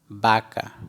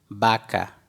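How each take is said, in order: First: The word begins with a B sound. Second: The word begins with a B sound.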